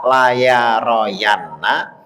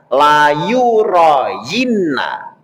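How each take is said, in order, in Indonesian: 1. Suku kata kedua adalah 'ya', lalu 'ra'. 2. Suku kata kedua adalah 'yu', lalu 'ri'. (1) "tidak dibaca la ya royanna" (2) "tapi dibaca layu royinna"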